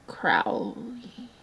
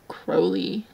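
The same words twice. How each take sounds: First: The name is pronounced with a harder sound. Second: The name is pronounced with a softer sound.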